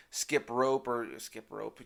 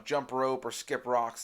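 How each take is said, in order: First: Slower, tripping over the phrase; muddled mix-up of the saying; slip of the tongue. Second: Said in the usual way. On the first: Real, not acted. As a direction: fumble the idiom. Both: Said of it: "That's what I meant to say".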